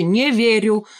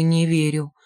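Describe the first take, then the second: First: Firm. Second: In despair. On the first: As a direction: plant your feet on Не верю. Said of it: "твёрдо ответил тот". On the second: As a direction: drop Не верю in reluctant despair. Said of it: "в отчаянии помотал головой". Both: Acted.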